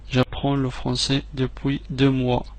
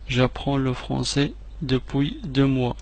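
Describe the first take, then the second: No difference in how they are said.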